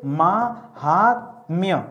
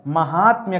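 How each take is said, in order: First: महात्म्य stretched very slowly, mahat-mi-ya, every syllable apart; slow spelled-out word. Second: Said in the usual way. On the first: Shown as a demonstration. Teacher showing the class, very slow drawn-out महात्म्य. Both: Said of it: "तो यहाँ क्या करेंगे?".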